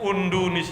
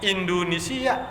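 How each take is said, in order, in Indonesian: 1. Kata Indonesia dimulai dengan vokal u. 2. Kata Indonesia dimulai dengan vokal i.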